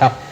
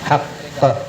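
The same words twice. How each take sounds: First: The final consonant stops flat with no echo. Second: The final consonant ends with an echoing bounce. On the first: The speaker calls it wrong. "എന്നല്ല" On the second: The speaker calls it right. "ഹഖ് എന്ന"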